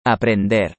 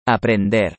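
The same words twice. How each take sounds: The two takes are said the same way.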